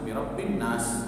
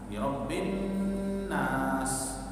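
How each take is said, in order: First: The nasal sound is cut short and rushed. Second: The nasal sound is held long and slow. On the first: The speaker calls it wrong. "jangan sampai birobbin nas" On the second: The speaker calls it right. "jadi kita tahan birobbin nas"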